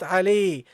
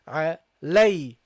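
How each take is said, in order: First: The vowel after the L is a plain 'ee'. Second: The vowel after the L is an 'ay' diphthong. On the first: The speaker calls it wrong. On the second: The speaker calls it right. "It is alay"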